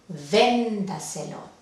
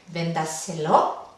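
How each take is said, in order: First: The stress is on the first syllable. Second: The stress is on the fourth syllable. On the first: The speaker calls it right. "la intensidad va en la sílaba anterior a la antepenúltima" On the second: The speaker calls it wrong. "¿Podría ir última?"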